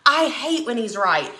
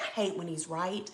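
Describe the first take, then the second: First: Said in the usual way. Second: Soft, under-the-breath grumble; muttered. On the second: Real, not acted. Admitting to viewers her husband was right, muttered low. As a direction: mutter it to yourself, grudging.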